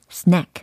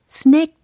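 First: It is said with English-style vowel and ending. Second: It is said with Korean-style syllables and vowels. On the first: The speaker calls it right. "이렇게 세련되게 발음" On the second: The speaker calls it wrong. "이게 아니고"

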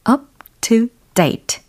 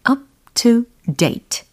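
No difference in how they are said.

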